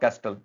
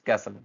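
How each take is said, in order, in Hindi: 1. s के बाद t की आवाज़ सुनाई देती है। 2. s के बाद t की आवाज़ सुनाई नहीं देती। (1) "it's not कैस्टल" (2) "it's कैसल"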